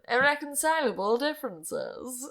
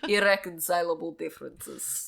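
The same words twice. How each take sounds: First: It is said in a transatlantic accent. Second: It is said in a Croatian accent.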